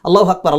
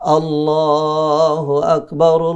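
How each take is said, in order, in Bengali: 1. এটি সুর ছাড়াই সমতলভাবে বলা হয়। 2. এটি মিষ্টি ও সুরেলা ভাবে বলা হয়। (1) "এমন ভাবে বলেন মনে যেন রসকস কিচ্ছু নেই" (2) "কি সুন্দর করে"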